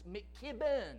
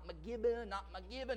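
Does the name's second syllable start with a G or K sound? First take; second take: K sound; G sound. First: The second syllable starts with a K sound. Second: The second syllable starts with a G sound. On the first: The speaker calls it right. "It's McKibben" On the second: The speaker calls it wrong. "not McGibben"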